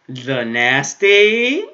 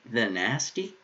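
First: Slow drawn-out rising question; mock scandalized. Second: Said in the usual way. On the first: Shown as a demonstration. Repeating the anime line in a slow teasing drawl. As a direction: stretch it out, teasing. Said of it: "I'm joking".

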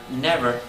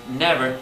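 The two takes are said the same way.

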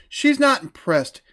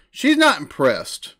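The two takes are said the same way.

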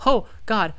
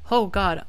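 No difference in how they are said.

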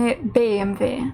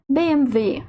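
First: B M W with the stress moved off the final W; wrong stress. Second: B M W with the stress on final W; correct last-letter stress. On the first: Teacher showing the mistake, B M W not stressed on final W. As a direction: say B M W without landing on the last letter. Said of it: "так, тобто не B M W". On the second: Teacher correcting the mistake, B M W stressed on W. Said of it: "наголос падає на останню з них". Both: Shown as a demonstration.

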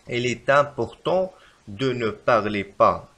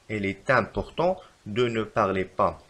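First: Very slow, stretched dictation; wrong example slowly. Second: Slow, even reread; slow repeat. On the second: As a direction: repeat it slowly once more. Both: Shown as a demonstration. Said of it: "فالخطأ في هذه الجملة".

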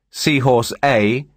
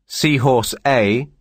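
No difference in how they are said.

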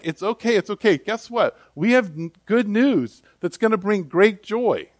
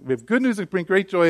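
First: Higher, eager good-news voice; excited angels. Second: Said in the usual way. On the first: Retold or imitated. Angels cheerfully announce great joy to shepherds, higher and eager. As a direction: bubble over with good news. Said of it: "So the angels are like".

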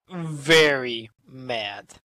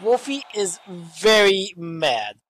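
First: Very mad drawn out slow and low; stress on very mad. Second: Said in the usual way. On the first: Shown as a demonstration. Commentator stressing how angry Wolfie is, slow and heavy. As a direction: lean hard on very mad.

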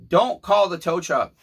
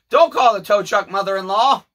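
First: Said in the usual way. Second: Higher, louder pleading call; a raised, earnest plea. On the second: Retold or imitated. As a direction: plead loudly to the mother-in-law. Voicing Rob's plea.

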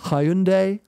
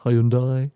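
First: Hyundai said HY-un-day, three syllables; Hyundai as hi-un-die. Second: Hyundai said EYE-un-die, dropping the h. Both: Shown as a demonstration. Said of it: "God knows how you pronounce it".

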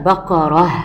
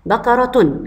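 First: بقرة said as baqarah, ending in h; pausal form with h. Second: بقرة said as baqaratun, with sounded t; full case ending on بقرة: baqaratun; connected form with t. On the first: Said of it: "ولما اقف عليها هتبقى بقرة". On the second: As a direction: end بقرة on a clear "-tun". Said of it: "بقرة عند الوصل". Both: Shown as a demonstration.

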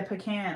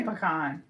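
First: "pecan" as puh-CAN; weak first syllable in "pecan", then CAN. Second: "pecan" as puh-KAHN; weak first syllable in "pecan", then a long AH. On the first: Agreeing with a friend, "pecan" said puh-CAN. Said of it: "I think that's what I say". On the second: Correcting herself on the word, "pecan" said puh-KAHN. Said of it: "No, I say pecan". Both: Shown as a demonstration.

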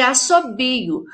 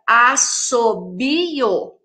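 First: Said in the usual way. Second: "Assobio" very slowly split into as-so-bi-o; syllable by syllable. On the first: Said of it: "com quatro sílabas". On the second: Shown as a demonstration. Teacher dividing the double S for pupils, syllable by syllable. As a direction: stretch "Assobio" into four separate beats. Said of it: "Um numa sílaba".

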